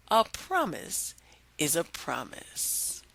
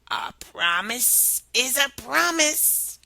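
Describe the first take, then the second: First: Story moral. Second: Slow whispered frog; slow odd whisper. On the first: A narrator's reading. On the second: Acted. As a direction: whisper it slowly and slyly.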